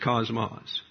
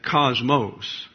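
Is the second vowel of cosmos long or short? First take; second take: short; long. First: The second vowel is a short O. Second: The second vowel is a long O. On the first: "if you're going to go with the Greek, it's cosmos" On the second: "as if this omicron was an omega, which gets a long O sound"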